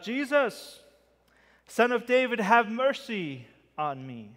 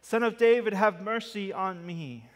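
First: Calling out. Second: Loud desperate cry, louder still; shouting louder. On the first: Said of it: "With more of an exclamation point". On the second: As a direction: shout it out, begging harder. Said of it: "he shouted all the more". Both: Acted.

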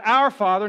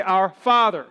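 First: "Our" stressed, "Father" left unstressed. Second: "Father" punched louder than "Our"; stress on FATHER. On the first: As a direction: punch the word Our. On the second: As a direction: hit the word Father hard. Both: Shown as a demonstration. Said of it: "you emphasize each word".

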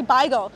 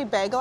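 First: Beigel said as "BY-gul"; Yiddish pronunciation. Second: Said in the usual way. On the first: Shown as a demonstration. Guide corrects listeners on the Yiddish word, beigel as "BY-gul". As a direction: say beigel with an "eye" vowel in the first syllable. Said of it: "the traditional Yiddish pronunciation for bagel". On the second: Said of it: "I wasn't trying to say bagel".

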